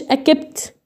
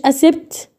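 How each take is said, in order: First: "اكبت" with only a k, no s; wrong K-only reading. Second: "اسبت" with only an s, no k; wrong S-only reading. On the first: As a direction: slowly misread "اكبت" with a hard k alone. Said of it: "ما قلتش اكبت". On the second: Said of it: "ما قلتش اسبت". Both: Shown as a demonstration.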